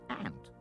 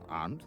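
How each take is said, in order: First: It is said with an American flat vowel. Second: It is said with a British broad vowel.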